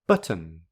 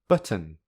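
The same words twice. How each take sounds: The two takes are said the same way.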